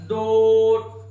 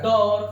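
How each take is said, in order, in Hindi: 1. स्वर को लंबा खींचकर बोला गया है। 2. स्वर छोटा और जल्दी बोला गया है। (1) "हमने ऐसे नहीं पढ़ा" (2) "सिर्फ जल्दी पढ़ा है"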